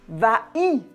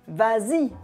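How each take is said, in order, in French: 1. Aucun son z ne fait la liaison entre les deux mots. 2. Un son z fait la liaison entre les deux mots. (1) "on ne dit pas va-y" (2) "On ajoute le s"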